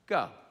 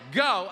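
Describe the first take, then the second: First: It is said in a kind, gentle way. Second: It is said in a harsh, curt way.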